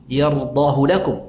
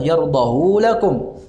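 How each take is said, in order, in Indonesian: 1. Vokal setelah huruf h dibaca pendek. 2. Vokal setelah huruf h dibaca panjang. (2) "secara qiyas harusnya kan panjang"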